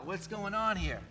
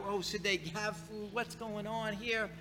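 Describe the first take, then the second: First: Said in the usual way. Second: Soft, muttered wondering to himself; puzzled inner thought. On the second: Retold or imitated. Pastor voicing his own puzzled thoughts.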